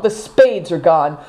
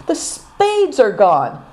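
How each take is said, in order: First: Said in the usual way. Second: Slow, high, crushed lament; despairing groan. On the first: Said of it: "said Naidong". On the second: A narrator's reading. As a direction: drag it out in despair. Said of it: "groaned Good Fortune".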